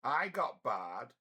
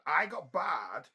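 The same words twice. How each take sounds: First: Said in the usual way. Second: Higher, louder and slow on I got barred; indignant repeat of "I got barred", pitched up and loud; emphatic repeat. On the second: Real, not acted. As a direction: lean hard into "I got barred", drawn out. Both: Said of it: "And I got barred".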